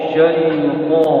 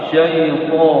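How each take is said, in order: Both takes have the same delivery.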